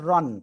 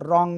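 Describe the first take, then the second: First: The word ends with a clear n sound. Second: The word ends with a nasal ng sound. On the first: The speaker calls it wrong. "দন্ত ন হওয়ার কথা ছিল" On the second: The speaker calls it right. "রন না বলে অনুসার উচ্চারণ করব"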